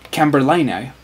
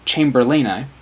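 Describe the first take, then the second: First: The word begins with a hard k sound. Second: The word begins with a ch sound. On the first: It follows Latin pronunciation rules. "But if you pronounce it Camberlaini, then you are not being true to what the animal's name actually came from" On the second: It follows the English name it came from. "if you pronounce this word Chamberlaini, then you are not being true to the correct Latin pronunciation"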